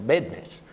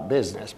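First: The word is said with a Texan pronunciation. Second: The word is said with a standard pronunciation. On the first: "in down in Texas where I come from, they pronounce it a business" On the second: "not a business"

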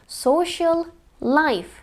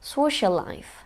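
First: The l sound is said twice, once per word. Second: The l sound is said only once, shared. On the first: "telaffuz edilmesini beklediğimiz"

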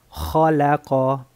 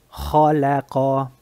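Both takes have the same delivery.

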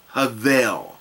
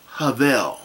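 First: It starts with an H and has a V. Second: The same.

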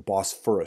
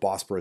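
First: The middle consonant is an f sound. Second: The middle consonant is a p sound. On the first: The speaker calls it right. "I should pronounce it correctly" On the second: The speaker calls it wrong. "I keep calling it the Bosporus Straits"

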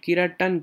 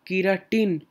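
First: The last syllable sounds like 'tan'. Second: The last syllable sounds like 'tin'. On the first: The speaker calls it right. "It is not tin, it is tan" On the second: The speaker calls it wrong. "not keratin. It is not tin"

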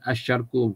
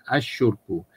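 First: The vowel after the sh sound is a. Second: The vowel after the sh sound is u. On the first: "Bukan asyarku" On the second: "Bukan asyurku"

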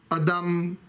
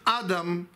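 First: The stress is on the last syllable. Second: The stress is on the first syllable. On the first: It means a human being. "es ist Milra und Milel" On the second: It names the first man, Adam. "mit Betonung auf dem Aleph"

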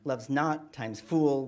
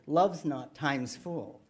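First: The da-DUM beat is heavily exaggerated. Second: It is read naturally, like a sweet poem.

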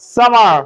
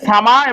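First: It is said with an American accent. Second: It is said without an American accent. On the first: "যদি American করো আসো" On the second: "আর যদি এটাকে সামা ... বলো, কোনো অসুবিধা নাই"

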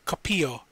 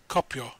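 First: The i and o are separate syllables. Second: The i and o merge into one syllable. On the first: The speaker calls it right. "is pronounced copio" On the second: The speaker calls it wrong. "not copio"

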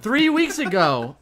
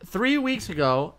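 First: It is said with energy and gusto. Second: It is said flatly, without much energy.

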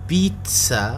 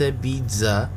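First: The middle consonant is said as ts. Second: The middle consonant is said as z. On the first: The speaker calls it right. "تلفظ بيتزا" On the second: The speaker calls it wrong. "وليس بيتزا كما هو معروف"

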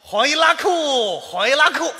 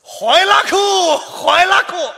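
First: It is said with mild happiness. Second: It is said with great excitement.

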